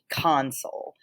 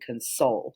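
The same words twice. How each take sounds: First: The stress is on the first syllable. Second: The stress is on the second syllable. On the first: It is a noun meaning a control panel. "you're going to put the emphasis on the first half of the word" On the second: It is a verb meaning to comfort. "you put that emphasis on the second half of the word"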